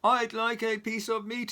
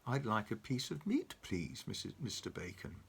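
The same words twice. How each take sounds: First: Loud high boom. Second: Soft, fading politely; quietly. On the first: Mister Noisy booms at Mister Bacon, loud. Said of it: "he boomed". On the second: Mister Noisy politely asks Mister Bacon, quiet. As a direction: ask gently. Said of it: "he said quietly". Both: Acted.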